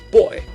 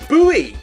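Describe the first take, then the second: First: It is said as one syllable, like boy. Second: It is said as two syllables, boo-ee. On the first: "I know of as being pronounced as boy" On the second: "I think Americans ... call it a buoy"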